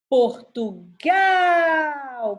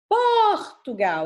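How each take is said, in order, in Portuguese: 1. A sílaba tônica está na última sílaba. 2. A sílaba tônica não está na última sílaba. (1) "a última sílaba tônica" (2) "é assim que eu falo?"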